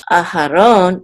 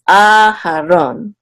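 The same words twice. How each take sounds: First: Aharon with short opening A, weight only on ron; first A unaccented. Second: Aharon slow, opening A long and louder; secondary accent on A. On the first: Teacher showing how not to say it, Aharon with A unstressed. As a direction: skim the A of Aharon, stress just the end. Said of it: "So it's not Aharon". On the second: Teacher correcting the stress, Aharon with a long strong A. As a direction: hold the first A of Aharon, then land on ron. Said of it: "it's Aharon". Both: Shown as a demonstration.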